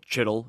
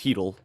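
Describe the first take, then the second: First: The name begins with a 'ch' sound. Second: The name begins with an 'h' sound. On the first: The speaker calls it wrong. "If you're one of the people who say it that way" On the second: The speaker calls it right. "that's how it's pronounced"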